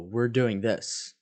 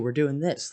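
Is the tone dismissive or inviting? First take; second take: dismissive; inviting. First: It sounds curt and dismissive. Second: It sounds friendly and inviting. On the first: The listener's idea is being shut down. The speaker calls it wrong. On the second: The listener is welcome to join. The speaker calls it right.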